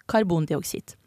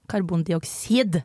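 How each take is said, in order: First: Said in the usual way. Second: Careful, slow "Karbondioksid"; ordentlig uttale. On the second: Shown as a demonstration. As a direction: say "Karbondioksid" properly, every syllable measured. (sakte, ordentlig uttalt «Karbondioksid») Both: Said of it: "sier vi ordentlig her".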